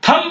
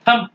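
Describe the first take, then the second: First: The word ends with an audible b sound. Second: The word ends on the m sound. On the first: The speaker calls it wrong. "नहीं है" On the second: The speaker calls it right. "बी का sound आप नहीं देंगे"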